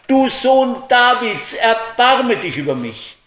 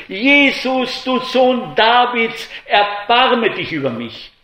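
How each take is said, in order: First: Crying out louder. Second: High, loud desperate plea; crying out. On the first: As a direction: shout it over the crowd silencing him. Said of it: "Er aber schrie noch viel mehr". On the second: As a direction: cry out for mercy from the roadside. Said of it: "fing er an zu schreien". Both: A narrator's reading.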